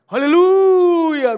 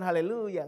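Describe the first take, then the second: First: It is said loudly, with thunderous energy. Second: It is said softly, with little energy. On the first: The speaker calls it right. "Harusnya lebih menggelegar ya" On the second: The speaker calls it wrong. "bukan haleluya"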